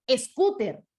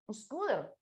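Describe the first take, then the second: First: "scooter" said as es-KU-ter; crisp Spanish T in "scooter", E in front; Spanish pronunciation. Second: "scooter" with a soft tapped T and English R; English pronunciation. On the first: Teacher giving our Spanish form, "scooter" as es-KU-ter. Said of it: "pero para nosotros es". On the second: Teacher citing the English word, "scooter" with tapped middle consonant. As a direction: say "scooter" as SKOO-der. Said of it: "para el inglés es". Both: Shown as a demonstration.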